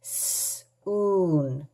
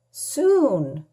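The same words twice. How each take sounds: First: "soon" with a long drawn-out oo, softer; stretched long oo. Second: Said in the usual way. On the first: Shown as a demonstration. Teacher modelling the long oo in "soon", drawn out. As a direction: hold the oo in "soon".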